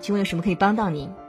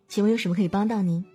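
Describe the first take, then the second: First: The voice is steady, solid and crisply articulated. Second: The voice is light, breathy and gently upbeat. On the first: It sounds authoritative and professional. "气息沉稳，语气坚定，音色偏实，咬字积极有力" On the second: It sounds warm and friendly, as in service work. "声音当中可以有一些虚声的成分去过渡，气息比较轻柔，语气轻快"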